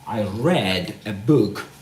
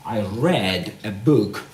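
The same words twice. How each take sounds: First: The verb is said with a short vowel. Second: The same.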